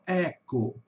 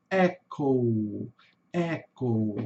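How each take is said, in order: First: Closed-O echo; Portuguese echo. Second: Long-vowel echo; English echo. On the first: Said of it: "Em português nós falamos". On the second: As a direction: echo ending in a long OU glide. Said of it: "uma vogal longa". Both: Shown as a demonstration.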